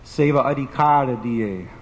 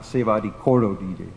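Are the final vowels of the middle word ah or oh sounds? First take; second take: ah; oh. First: The middle word ends with ah vowel sounds. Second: The middle word ends with oh vowel sounds. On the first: The speaker calls it right. "The word there is adhikar" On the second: The speaker calls it wrong. "people mispronounce it"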